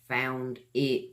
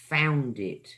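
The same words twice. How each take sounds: First: The two words are said separately. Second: The two words run together as one.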